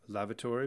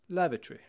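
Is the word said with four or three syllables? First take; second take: four; three. First: The word is said with four syllables. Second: The word is shortened to three syllables.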